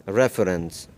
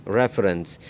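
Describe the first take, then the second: Both takes have the same delivery.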